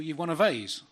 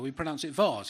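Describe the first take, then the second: First: Vase is said with an American pronunciation. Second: Vase is said with a British pronunciation. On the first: "an American museum" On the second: "No, no, we pronounce it vase"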